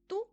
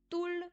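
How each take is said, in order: First: The word ends without the final L sound. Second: The word ends with its final L sound. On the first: The form used when saying an age. "on va dire tout" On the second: The plain counting form. "Au lieu de dire toul"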